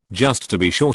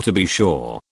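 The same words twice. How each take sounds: First: Said in the usual way. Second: Lightly mocking cartoon Irish lilt on "to be sure"; mock stage-Irish accent. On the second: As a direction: tease the leprechaun Irish accent a little. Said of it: "the cartoon accent that goes along with it".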